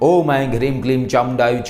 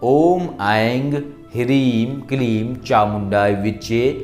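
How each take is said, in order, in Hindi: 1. यह जल्दी-जल्दी और फुर्ती से पढ़ा जाता है। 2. यह धीरे और ठहर-ठहर कर पढ़ा जाता है। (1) "जल्दी जल्दी करने का तरीका" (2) "ये हमने धीरे धीरे आपको बताया है"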